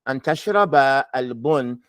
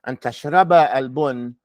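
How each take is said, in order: The two takes are said the same way.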